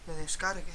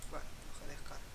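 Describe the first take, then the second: First: Said in the usual way. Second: Breathy whispered mutter, much softer; resigned whisper while the game downloads; whispered aside. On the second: Real, not acted. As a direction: mutter it under your breath to yourself. Repeats phrase, second time muttered.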